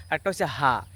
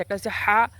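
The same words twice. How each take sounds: First: হা as a light breathy Bengali h; soft plain ha. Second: হা said tight from the throat like Arabic ح; throaty Arabic ha. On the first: Teacher contrasting two ha sounds for viewers, soft plain ha. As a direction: let the হা out softly with open breath. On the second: Teacher contrasting two ha sounds for viewers, throaty ha. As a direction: squeeze the হা hard in the throat. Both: Shown as a demonstration. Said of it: "দুইটা শব্দ আছে".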